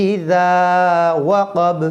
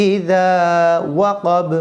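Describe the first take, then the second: The two takes are said the same way.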